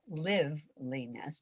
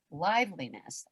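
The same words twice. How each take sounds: First: "liveliness" said slowly, first syllable as in "give"; short-i liveliness. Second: "liveliness" with the first syllable like "life"; long-i liveliness. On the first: Coach stressing to live, "liveliness" slow with short i. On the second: Coach naming the sense we bring, "liveliness" with long i. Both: Shown as a demonstration. Same word said two ways.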